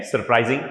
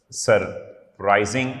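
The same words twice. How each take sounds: First: Said in the usual way. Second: "surprising" slowly, broken after the first syllable. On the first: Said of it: "ING वाली है". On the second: Shown as a demonstration. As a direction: say "surprising" as sur, pause, prising. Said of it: "like, uh".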